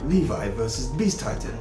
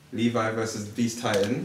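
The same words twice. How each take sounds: First: It is said in a put-on announcer voice. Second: It is said in their normal voice.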